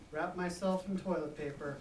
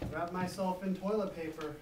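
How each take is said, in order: Both takes have the same delivery.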